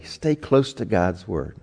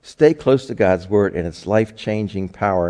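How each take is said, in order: First: Slow, every word weighted: "stay close to God's word"; slow emphasis. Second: Said in the usual way. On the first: Shown as a demonstration. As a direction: lean on "stay" and draw the phrase out. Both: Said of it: "what we really want to emphasize today".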